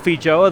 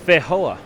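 First: The j is said as a j sound. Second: The j is said as an h sound.

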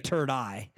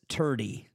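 First: The word ends with an 'eye' sound. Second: The word ends with an 'ee' sound. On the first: "Or it could be turd eye" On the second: "I don't exactly know how to pronounce it"

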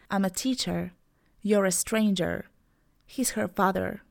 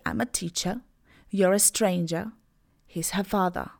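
First: The final R sounds are clearly pronounced. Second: The final R sounds are dropped as schwa. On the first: "In American, I would say, ... I exaggerated a bit" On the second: "So in British, I would say"

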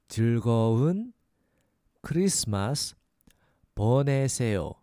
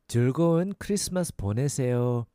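First: It is said slowly. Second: It is said fast.

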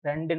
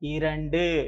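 First: The word is shortened, without the opening i sound. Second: The word is full, with the opening i sound. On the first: The speaker calls it wrong. "ரெண்டுன்னு சொல்லக்கூடாது பாருங்க" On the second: The speaker calls it right.

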